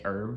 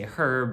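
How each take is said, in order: First: It is said the American way, h dropped. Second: It is said the English way, h pronounced.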